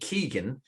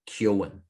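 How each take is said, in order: First: The name sounds like Keegan, in one smooth syllable. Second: The name sounds like Kyo-an, in two syllables. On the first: This is how the name is commonly said. The speaker calls it right. "very common, incredibly common Irish second name" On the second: This is how only the actor says it. The speaker calls it wrong. "the only person I've ever seen in my life who calls himself Kyoan"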